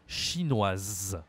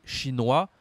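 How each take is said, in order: First: CHINOISE ending in a long sounded z; feminine pronunciation. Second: CHINOIS ending in "wa", final s silent; open-ended "chinois" with no z; masculine pronunciation. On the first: Teacher giving another nationality, feminine pronunciation. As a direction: lower "chinoise", buzz the final z. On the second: Teacher giving another nationality, masculine pronunciation. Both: Shown as a demonstration. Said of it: "la prononciation est différente".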